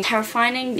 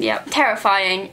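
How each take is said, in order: First: "Terrifying?" asked back with a rising tune; questioning. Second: "terrifying" answered slowly, settled with a falling tune; confirming. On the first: Echoing her own word to viewers, a quizzical rising question. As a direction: check the word "Terrifying?" as a question, voice lifting at the end. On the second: Answering her own question for viewers, slow firm confirmation. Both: Shown as a demonstration.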